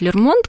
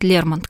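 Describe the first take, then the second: First: The stress is on the last syllable. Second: The stress is on the first syllable. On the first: This is the accepted Russian form today. "устоялось ударение на последний слог" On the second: This is the English form. "по-английски будет Лермонт"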